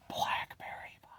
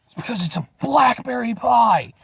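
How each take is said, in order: First: Breathy whisper of blackberry pie. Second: Said in the usual way. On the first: Acted. Whispering the pie's name to viewers. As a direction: hush it like a secret. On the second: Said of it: "Blackberry pie (whispered)".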